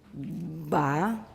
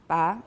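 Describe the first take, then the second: First: The stop has long, full voicing before it. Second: The stop is voiceless with no aspiration. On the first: "Long, fully voiced" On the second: "voiceless, unaspirated"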